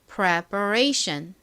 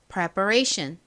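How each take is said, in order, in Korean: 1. 이 단어는 천천히 그리고 또박또박 말합니다. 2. 이 단어는 보통 속도로 말합니다.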